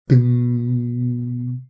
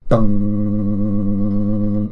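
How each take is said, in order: First: Long, steady hummed "ding"; non-vibrating string ding. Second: Long, loud vibrating "dung"; vibrating string dung. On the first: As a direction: imitate a string ringing on evenly. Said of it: "It's not vibrating". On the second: Streamer testing the vibro hands technique, long vibrating dung. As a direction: imitate a low string buzzing on. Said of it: "That has a vibrating sound to it". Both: Shown as a demonstration.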